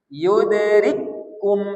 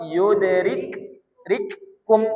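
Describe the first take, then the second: First: The two k sounds merge into one doubled k. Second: The two k sounds are pronounced separately. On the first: The speaker calls it right. "kap pertama tak dibaca, dimasukkan ke kap kedua, maka dikasih tanda tasdid" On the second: The speaker calls it wrong. "Seharusnya kita baca yudrik rikkum kan?"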